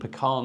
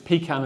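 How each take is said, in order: First: It uses the southern regional pronunciation. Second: It uses the northern regional pronunciation. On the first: "as you go south" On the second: "as you go north"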